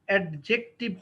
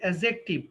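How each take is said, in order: First: A 'd' sound comes before the 'j'. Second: No 'd' sound comes before the 'j'. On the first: The speaker calls it wrong. "অ্যাডজেক্টিভ হবে না আরকি" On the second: The speaker calls it right.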